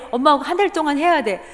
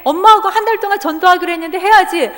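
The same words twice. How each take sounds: First: Said in the usual way. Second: Louder, higher insistence; firm insistence. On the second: Retold or imitated. Mother insisting loudly to her son. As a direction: press the point hard.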